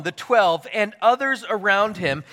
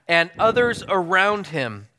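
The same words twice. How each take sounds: First: Said in the usual way. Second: Slower, leaning on "others"; marking the key words for the congregation; stress on others. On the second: Shown as a demonstration. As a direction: underline "others" by slowing down and pressing it. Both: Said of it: "circle, highlight, and underline that".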